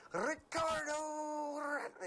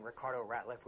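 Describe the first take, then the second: First: High, loud PA announcer call, name stretched long; arena announcer dragging the name out, pitched way up; drawn-out arena call. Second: Said in the usual way. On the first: Shown as a demonstration. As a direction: drag out RICARDO in a booming player intro. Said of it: "I really drug. It was like". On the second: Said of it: "I really drug".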